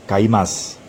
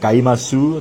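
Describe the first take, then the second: First: The final u is dropped or barely audible. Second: The final u is fully pronounced. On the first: The speaker calls it right. "tetapi membacanya kaimas, atau menghilangkan huruf u-nya" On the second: The speaker calls it wrong. "meskipun akhirannya u, misalkan kaimasu"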